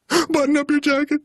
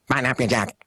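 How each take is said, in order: First: The voice sounds fearful. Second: The voice sounds angry and fearful together. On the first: "And that's the fear" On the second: "combined them into"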